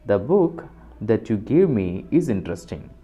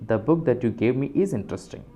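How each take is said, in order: First: It is said with pauses and stress around the clause. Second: It is said smoothly without pauses around the clause. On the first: The clause is only extra, non-essential information. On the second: The clause is essential information identifying the book.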